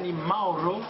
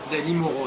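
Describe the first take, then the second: First: The surname is pronounced the Italian way. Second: The surname is pronounced the French way. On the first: This is the original form of the name. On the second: This is the everyday stage version of the name.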